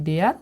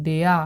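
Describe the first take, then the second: First: ডেয়ার said in full as the finished English word, rising at the end. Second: ডেয়া said without the final r, as the built-up first half of the word; partial sound. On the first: Teacher showing students the finished word, full ডেয়ার. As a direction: give the whole word ডেয়ার. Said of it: "তাহলে হলো ডেয়ার". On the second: Teacher building up the word for students, partial ডেয়া. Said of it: "দিয়ে হলো ডেয়া". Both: Shown as a demonstration.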